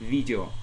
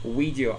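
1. Слово начинается со звука v. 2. Слово начинается со звука w. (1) "а видео" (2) "Не видео"

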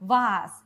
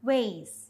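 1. สระเป็นเสียง 'ah' ยาว เหมือนใน 'cars' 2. สระเป็นเสียง 'ay' เหมือนใน 'face' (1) "คนอังกฤษจะออกเสียงว่า" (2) "ส่วนคนอเมริกันจะออกเสียงว่า"

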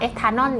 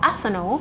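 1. พูดด้วยสำเนียงแบบไทย 2. พูดด้วยสำเนียงอังกฤษแท้ (1) "แต่พี่เรียนมาว่า" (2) "เขาพูดว่า"

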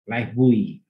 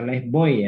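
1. Kata kedua tidak terdengar seperti 'boy'. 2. Kata kedua terdengar seperti 'boy'.

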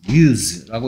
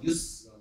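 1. 동사 형태로 발음해요. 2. 명사 형태로 발음해요. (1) "use라고 읽으면 동사고요" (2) "use라고 읽으면 명사입니다"

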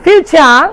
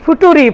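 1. এতে ch ধ্বনি আছে, শেষে কোনো ri নেই। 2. এতে t ধ্বনি আছে, আর শেষে ri। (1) "তখন চ হয়। তাহলে ফিউ ছা, বলেন ফিউচার" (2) "এটা তো ফুটুরি স্যার"

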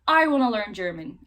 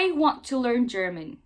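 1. 'want to' 'wanna'ya indirgenir. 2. 'want to' iki ayrı tam kelime olarak söylenir.

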